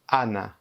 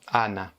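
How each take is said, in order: The two takes are said the same way.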